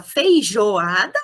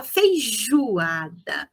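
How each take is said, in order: First: Said in the usual way. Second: Feijoada with jo said as "ju", slowly; spoken feijoada, "feijuada"; oral feijoada. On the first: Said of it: "a gente fala feijoada". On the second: Shown as a demonstration. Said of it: "é o U que aparece".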